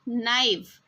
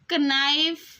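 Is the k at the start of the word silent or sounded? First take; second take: silent; sounded. First: The word begins with an n sound. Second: The word begins with a k sound. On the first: The speaker calls it right. "जब हम इसको बोलेंगे तो हम इसको बोलेंगे नाइफ" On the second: The speaker calls it wrong. "इसको कनाइफ नहीं पढ़ना है"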